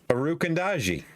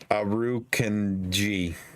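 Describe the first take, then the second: First: An extra vowel sits between 'kand' and 'ji'. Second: No vowel sits between 'kand' and 'ji'. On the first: The speaker calls it wrong. "you're adding an A in between canned and, and G though" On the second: The speaker calls it right. "I'm sorry for the extra syllable"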